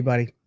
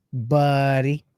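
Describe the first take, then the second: First: Said in the usual way. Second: Drawn-out eighties slacker "Buddy"; Pauly Shore style. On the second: Acted. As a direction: stretch "Buddy" out long in a comic impression. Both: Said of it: "Pauly Shore style".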